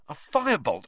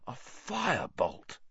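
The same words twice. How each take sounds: First: High excited exclaim. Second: Slow, soft and dreamy. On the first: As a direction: exclaim it eagerly. Wood exclaims, then muses. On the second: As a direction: murmur it in longing. Wood trails off dreamily. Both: A narrator's reading.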